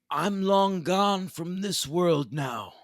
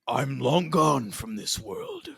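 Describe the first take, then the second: First: The Jigsaw voice is pitched high. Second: The Jigsaw voice is pitched low.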